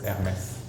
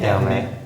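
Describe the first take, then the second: First: The final S sound is pronounced. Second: The final S sound is silent. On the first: It is treated as a family name. The speaker calls it right. "at the end you say it" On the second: It is treated as a regular word. The speaker calls it wrong. "It would be Hermès if it was just like a regular word"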